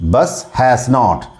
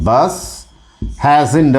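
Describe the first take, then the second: First: Has and not are said as two full words. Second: Has and not merge into one short word.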